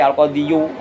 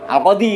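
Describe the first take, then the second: First: The word ends with an added yoo sound. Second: The word ends in a plain long ee. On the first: It sounds heavy and awkward. The speaker calls it wrong. "moh di al-qadiyu, angel" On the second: It sounds light and easy. The speaker calls it right. "Al-qadi ngono ae"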